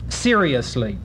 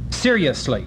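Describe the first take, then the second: First: The word is said with four syllables. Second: The word is said with three syllables. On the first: "a four-syllable word for most of us" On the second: "Shakespeare expected it to be a three-syllable word"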